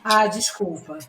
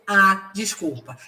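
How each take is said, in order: First: Said in the usual way. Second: Drawn-out, mocking "Ah" before "desculpa", slow; a sarcastic, dragged apology. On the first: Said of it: "Esse "A" é de sendo incon". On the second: Shown as a demonstration. Employee mocks the boss with a slow sarcastic apology. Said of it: "Esse "A" é de deboche".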